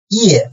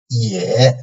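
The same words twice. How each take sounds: First: The pitch falls sharply from high to low. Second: The pitch dips low, then rises slightly.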